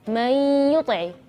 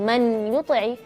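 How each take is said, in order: First: The n merges into a nasalized y sound. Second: The n is pronounced clearly before the y. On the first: The speaker calls it right. "tapi may yuti'i" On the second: The speaker calls it wrong. "bukan man yuti'i"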